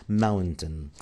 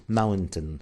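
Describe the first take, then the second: No difference in how they are said.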